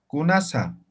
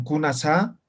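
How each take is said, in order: First: Kunasa said dry and level, falling at the end with no question lift; the Aymara way, kunasa dry and falling; flat, dry. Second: Kunasa with the tune rising at the end, Spanish style; the wrong way, kunasa sung up like a Spanish question. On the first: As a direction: say kunasa flat and plain, no rising tune. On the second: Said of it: "no entonan". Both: Shown as a demonstration.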